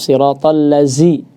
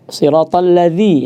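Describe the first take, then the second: First: The consonant is a buzzing z sound. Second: The consonant is a soft th-like dzal sound. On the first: The speaker calls it wrong. "sebagian ada yang baca dengan zai" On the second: The speaker calls it right. "huruf dzal jangan sampai dibaca"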